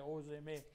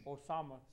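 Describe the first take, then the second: First: The name is said with 'é' vowels. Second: The name is said with open 'a' vowels. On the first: This is how local people said the name. The speaker calls it wrong. "ça l'appelait Osémé" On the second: This is the usual form of the name. The speaker calls it right. "le monde ici ne pouvait pas prononcer Osama"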